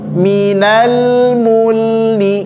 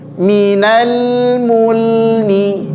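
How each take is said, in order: The two takes are said the same way.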